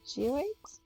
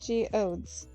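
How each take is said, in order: First: The word ends with an 'oids' sound. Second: The word ends with an 'odes' sound. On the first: The speaker calls it wrong. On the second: The speaker calls it right.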